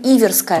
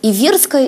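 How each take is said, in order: First: The stress falls elsewhere than in 'Иверия'. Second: The stress falls where it falls in 'Иверия'. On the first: This form is the one in common use. "но мы упорно говорим иверская" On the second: This form follows the logic of the country name. "логично было бы говорить"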